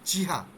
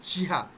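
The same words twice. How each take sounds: No difference in how they are said.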